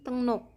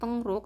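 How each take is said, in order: First: The second syllable starts with an n sound. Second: The second syllable starts with an r sound. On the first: The speaker calls it right. "aku bacanya Wegukin Tengnok" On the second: The speaker calls it wrong. "bukan Tengrok"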